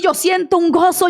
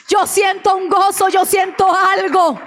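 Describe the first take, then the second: First: Said in the usual way. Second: Raised, ringing retelling of the father's joy; joyful cry. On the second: Retold or imitated. Daughter retelling her dying father's joyful cry, raised and exultant. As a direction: call it out high, overflowing with joy.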